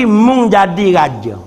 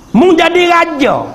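First: Said in the usual way. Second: Emphatic preaching. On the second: Acted. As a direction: hit it like the punchline of the sermon. Preacher repeats the Prophet's saying.

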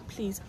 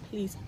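Both takes have the same delivery.

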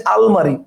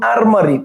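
First: "আলমারি" with l before the m; Bengali form. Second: "আরমারি" with an r before the m; Portuguese original form. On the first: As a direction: sound an l in "আলমারি". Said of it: "বাংলায় আমরা আলমারি বলি". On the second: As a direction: sound the r in "আরমারি". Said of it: "Portuguese শব্দ". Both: Shown as a demonstration.

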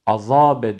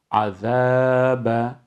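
First: Azabe with a thick, dark z and a; wrong thick azabe. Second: Azabe with a thin, lisped z and light vowels; correct thin azabe. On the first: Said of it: "Azabe diye kalın değil". (Azabe'yi yanlış, kalın okuyarak göster) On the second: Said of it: "ince bir harftir, peltektir". (Azabe'yi doğru, ince ve peltek oku) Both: Shown as a demonstration.

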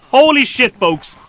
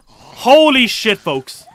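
First: Said in the usual way. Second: Drawn-out holy shit. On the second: Real, not acted.

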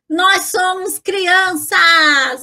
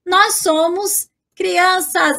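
First: Drawn-out, playful exclamation; gleeful cheer. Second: Said in the usual way. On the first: Pretend. Teacher claiming the phrase as her own, gleeful cheer. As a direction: cheer it out slowly like a happy kid.

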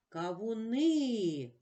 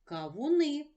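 First: "Кавуни" slowed, final И stretched long; stress on the И. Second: Said in the usual way. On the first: Shown as a demonstration. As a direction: hold the last vowel И of "Кавуни". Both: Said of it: "Наголошений, голосний И".

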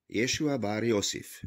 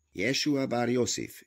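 First: Said in the usual way. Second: Impatient repeat. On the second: A narrator's reading. Jehuda repeating the name to the treasurer, impatient. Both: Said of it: "ismétli Jehuda türelmetlenül".

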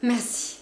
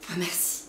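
First: Higher and louder merci; exclaimed thanks. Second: Grateful. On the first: Cousin cries out her thanks, high and loud. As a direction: burst out with thanks. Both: A narrator's reading. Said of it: "Elle s'écria".

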